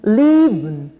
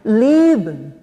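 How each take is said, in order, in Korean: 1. 첫 음절에 강세가 있고, 두 번째 모음은 거의 묵음이에요. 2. 첫 음절에 강세가 있고, 두 번째 모음은 거의 묵음이에요.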